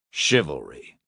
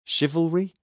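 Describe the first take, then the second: First: CHIVALRY dropped low with a falling close; confirming tune. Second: CHIVALRY lifted into a rising question; questioning tune. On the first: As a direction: confirm "Chivalry" as a settled statement, pitched down. Word confirmed after the question. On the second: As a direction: offer "Chivalry" tentatively, pitch climbing. Word offered as a question. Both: Acted.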